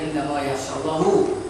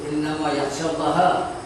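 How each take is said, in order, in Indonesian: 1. Allah berakhir dengan vokal 'u'. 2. Allah berakhir dengan vokal 'a'. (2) "baris atas baris fathah"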